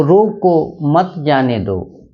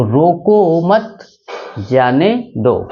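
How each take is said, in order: First: Slow "रोको", a short break, then "मत जाने दो" together; comma after रोको. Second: Slow reading with a clear pause after "मत"; comma after मत. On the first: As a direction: set "रोको" apart from "मत जाने दो". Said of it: "अल्प विराम का प्रयोग यहाँ करेंगे". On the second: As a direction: join "रोको मत", break, then finish "जाने दो". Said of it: "इसको मिटा के यहाँ करेंगे". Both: Shown as a demonstration.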